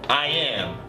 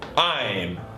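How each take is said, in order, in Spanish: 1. Las palabras se dicen en dos sílabas. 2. Las palabras se unen en una sola sílaba. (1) "la forma completa" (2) "la forma corta"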